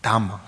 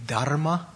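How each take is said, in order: First: "Dhamma" with no R, a doubled M, DHAM-ma; Pali dhamma. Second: "dharma" with the R clearly sounded, DHAR-ma; Sanskrit dharma. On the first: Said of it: "what is it in Pali?". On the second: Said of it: "in Sanskrit". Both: Shown as a demonstration.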